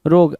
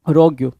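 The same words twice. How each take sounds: First: "रोग" said as one syllable, rog; pronounced "रोग". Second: "रोग्यू" said as rog-yoo with a second syllable; pronounced "रोग्यू". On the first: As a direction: say "रोग" short, one syllable, no yoo ending. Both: Shown as a demonstration. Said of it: "या फिर रोग्यू".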